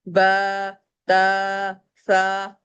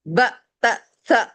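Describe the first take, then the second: First: Each syllable is stretched out long. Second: Each syllable is cut off with a jerk. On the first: "हरकत को खींच नहीं सकते। ... No, not allow." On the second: "हरकत को झटका नहीं दे सकते। ... गलत।"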